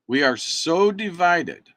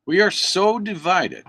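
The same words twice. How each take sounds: First: Slow down and lean on "so" in We are so divided; slower repeat with "so" stressed. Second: Higher and louder, We are so divided; a raised, emphatic We are so divided; emphatic declaration. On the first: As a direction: drag out "so" for weight. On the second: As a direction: state it hard the first time. Repeats it for emphasis. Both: Real, not acted.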